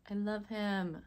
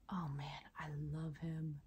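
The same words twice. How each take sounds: First: Said in the usual way. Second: Soft awed whisper. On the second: Real, not acted. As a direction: hush it like a secret. Admiring the crystal.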